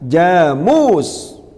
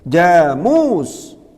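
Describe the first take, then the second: No difference in how they are said.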